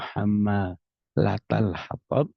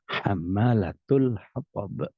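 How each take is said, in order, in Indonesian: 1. Kata pertama berakhir dengan vokal 'a'. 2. Kata pertama berakhir dengan vokal 'u'. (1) "seperti yang biasa kita baca" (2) "diriwayatkan juga dengan"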